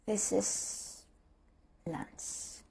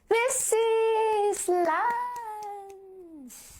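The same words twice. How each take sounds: First: It sounds let down and deflated. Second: It sounds mocking and insincere.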